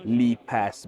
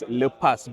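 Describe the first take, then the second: First: The first syllable sounds like the word 'leap'. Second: The first syllable does not sound like 'leap'. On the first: It comes from the word leap. The speaker calls it right. "a more accurate way to pronounce it is Lipas" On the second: It is a local reading of the spelling. The speaker calls it wrong. "Malaysians, they're probably going to pronounce it as Lepas"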